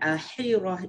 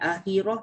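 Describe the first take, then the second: First: The middle consonant is a strong, breathy h. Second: The middle consonant is a light, plain h. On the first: "Jangan akhirah, itu ha pedas" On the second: "Jangan akhirah, itu ha simpul"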